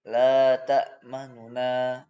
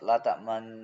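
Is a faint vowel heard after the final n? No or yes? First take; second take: yes; no. First: The final n carries a faint, short vowel. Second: The final n ends with no vowel sound. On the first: "Nun yang kedua itu dibaca sepertiga harokat" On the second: "ini ismam"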